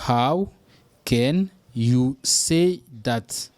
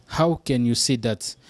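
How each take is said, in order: First: How set apart, then drawn out; slow teaching model; very slow, broken up. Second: Said in the usual way. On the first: Shown as a demonstration. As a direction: stretch every word for learners.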